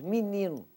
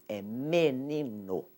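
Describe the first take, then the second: First: The word is said in the relaxed local way. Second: The word is said closely following its spelling. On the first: This is how people from Rio speak it. "O carioca, então, diz menino" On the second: This matches how the word is written. "para escrever não é menino, é menino"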